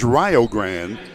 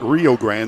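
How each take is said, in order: First: It is pronounced unlike the Texas river's name. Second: It is pronounced like the Texas river's name. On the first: This names the university's team. The speaker calls it right. "This is Rio Grande" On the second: This names the river on the Texas–Mexico border. The speaker calls it wrong. "it's not Rio Grande, that's the river at the border of Texas and Mexico"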